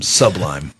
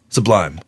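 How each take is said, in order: First: The stress falls on the first syllable. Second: The stress falls on the second syllable. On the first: This is the speaker's own way of saying it. The speaker calls it wrong. "But I call them sublime. Like Subway" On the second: This is how the band names itself. The speaker calls it right. "What do they call themselves?"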